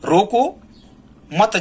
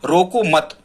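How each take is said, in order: First: There is a pause right after 'roko'. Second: There is a pause right after 'mat'. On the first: Stop them, do not let them go. "यदि हम अल्पविराम रोको के बाद लगा देते हैं" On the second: Do not stop them, let them go. "यहां हम रुकेंगे"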